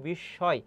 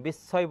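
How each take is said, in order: First: "বিস্ময়" said bish-shoy with doubled sh; sh sound. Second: "বিস্ময়" said bis-soy with hissed s. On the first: Teacher showing what we say, "বিস্ময়" as bish-shoy. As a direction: use sh, not s, in "বিস্ময়". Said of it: "আমরা বলি বিস্ময়". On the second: Teacher showing what we don't say, "বিস্ময়" as bis-soy. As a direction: use a dental s, no sh, in "বিস্ময়". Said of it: "ছয়ের মতো উচ্চারণ". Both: Shown as a demonstration.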